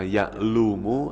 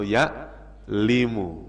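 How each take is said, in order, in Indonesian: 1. Vokal setelah l adalah u. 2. Vokal setelah l adalah i. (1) "Jangan dibaca" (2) "nggak boleh"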